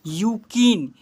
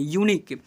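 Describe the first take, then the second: First: यूकिन with k and n swapped; mistaken pronunciation. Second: यूनिक as "yoo-neek", n before k; corrected pronunciation. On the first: Real, not acted. Teacher slips while reading to pupils, swapped consonants. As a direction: misread it as यूकिन, "yoo-keen". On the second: Shown as a demonstration. Teacher corrects the slip for pupils, yu sound. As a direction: say यूनिक with a clear yu opening. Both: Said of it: "sorry, यूनिक पढ़ेंगे".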